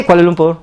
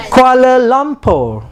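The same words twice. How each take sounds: First: "Kuala Lumpur" low and even, no stress; flat. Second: Slow "Kuala Lumpur" with long stressed LUM; "Kuala Lumpur" held up, then falling at the end; foreigner's stress. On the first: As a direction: run "Kuala Lumpur" out flatly and briefly. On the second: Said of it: "they are always with stress". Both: Shown as a demonstration.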